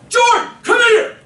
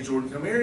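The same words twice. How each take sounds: First: It is said in an angry, alarming tone. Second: It is said in a calm, easygoing tone.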